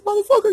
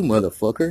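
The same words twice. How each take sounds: First: Much higher, louder yelled greeting; shouting the insult as a warm hello; excited shout. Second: Playful insult with a rising end; mock aggressive, easy and teasing; teasing greeting. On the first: Retold or imitated. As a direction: bellow it like a happy reunion. Shouting greeting at old friend. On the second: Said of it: "funny and aggressive".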